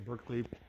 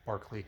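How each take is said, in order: First: The first syllable sounds like 'burk'. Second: The first syllable sounds like 'bark'. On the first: This is how the speaker usually says it. The speaker calls it wrong. "I say Berkeley" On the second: This is the correct way to say it. The speaker calls it right. "the correct pronunciation is Barkley"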